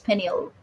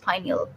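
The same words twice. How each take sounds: First: The first syllable does not sound like pine. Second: The first syllable sounds like the word pine. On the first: This is the medical form of the word. "in medical terms, it's pineal" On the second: The name comes from the pine-cone shape. "they call it pineal because uh, the gland looks like a pine cone"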